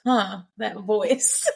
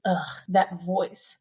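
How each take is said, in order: First: Slow, interested "that voice"; intrigued. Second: Slow, low disgusted "that voice"; disgusted groan. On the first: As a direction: perk up at the voice. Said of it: "I'm thinking to myself". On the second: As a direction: sneer at the voice. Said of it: "then she goes". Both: Retold or imitated.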